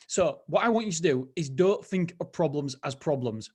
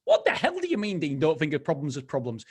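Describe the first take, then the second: First: Said in the usual way. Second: Mock-sceptical listener, pitched up; baffled listener. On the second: Host voices a baffled listener.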